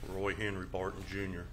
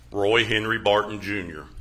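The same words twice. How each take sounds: First: It is said in a soft, quiet voice. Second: It is said in a louder, projected voice.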